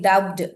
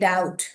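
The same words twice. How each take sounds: First: The b is pronounced before the t. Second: The b is silent before the t. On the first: The speaker calls it wrong. "we are not saying doubt" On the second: The speaker calls it right. "We say doubt"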